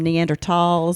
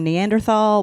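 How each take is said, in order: First: The middle consonant is a hard 't' sound. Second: The middle consonant is a soft 'th' sound. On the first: This is how people who discuss the topic say it now. "why it turned into a T" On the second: This is how the word was said when she was growing up. "I grew up saying Neanderthal"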